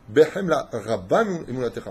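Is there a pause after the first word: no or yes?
yes. There is a short pause after the first word. The speaker calls it right. "On doit arrêter entre behemla et rabba"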